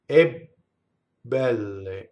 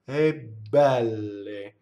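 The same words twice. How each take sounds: First: The voice stops before an overlong doubled B. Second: The B is doubled only very slightly, flowing on. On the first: The speaker calls it wrong. "We don't say e belle. See where I stopped. That's too much" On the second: The speaker calls it right. "So very softly, we would say e belle. Not too much"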